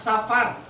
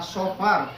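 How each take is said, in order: First: The first vowel is a plain open a. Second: The first vowel sounds dark, close to o. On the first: The speaker calls it wrong. "bukan safar" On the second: The speaker calls it right. "Jadi bacanya sofar"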